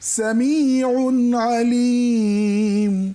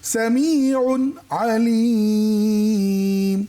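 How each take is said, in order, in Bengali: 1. শব্দ দুটো বিরতি ছাড়াই সহজভাবে জোড়া লাগে। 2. প্রথম শব্দটা হালকাভাবে শেষ হয় আর একটু থামে। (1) "উন্না উন্না ধরে ফেলেছি গুন্না ছাড়া" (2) "একটু হালকা চিকুন করে একটু পজ দেওয়া"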